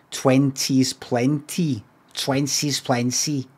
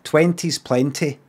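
First: Slow, non-Scottish Twenties plenty so it rhymes; wrong accent. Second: Twenties plenty in his own Scottish accent, slightly slow. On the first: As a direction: say Twenties plenty slowly the way others would. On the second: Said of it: "Right in my accent". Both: Shown as a demonstration.

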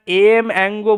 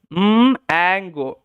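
First: "এম অ্যাঙ্গো" with the letter name em before ango; letter-name reading. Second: "উম, অ্যাঙ্গো" as hummed mmm, then ango; sound-based reading. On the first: Teacher warning what we don't say, letter-name reading. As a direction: say the letter "এম", not its sound, then "অ্যাঙ্গো". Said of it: "আমরা এম অ্যাঙ্গো বলি না". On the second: Teacher showing what we do say, hummed M then ango. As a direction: start "উম" on closed lips with no letter name. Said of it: "উম, সাউন্ডটাই কিন্তু করে থাকি". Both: Shown as a demonstration.

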